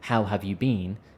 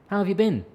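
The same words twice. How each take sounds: First: Each word is pronounced fully and separately. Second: The words are blended together, been sounds like bin. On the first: The speaker calls it wrong. "we don't even pronounce it like" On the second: The speaker calls it right. "So smash it all together"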